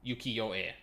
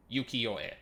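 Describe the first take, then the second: First: Ukiyo-e said "yu-kee-oh-eh"; trying it out. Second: Ukiyo-e said "yu-kee-oh-eh", assured; settled pronunciation. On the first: Checking how Ukiyo-e sounds, tentative. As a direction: test Ukiyo-e slowly. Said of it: "How do you pronounce it?". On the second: Settling on Ukiyo-e, plain and sure. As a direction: land Ukiyo-e with confidence. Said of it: "No, that would be it". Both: Shown as a demonstration.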